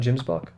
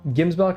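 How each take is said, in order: First: The word begins with a soft J sound. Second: The word begins with a hard G sound. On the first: The speaker calls it wrong. "not Jimsbok" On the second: The speaker calls it right. "Gimsbok, not Jimsbok"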